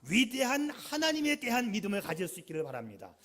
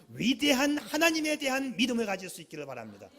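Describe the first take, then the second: The two takes are said the same way.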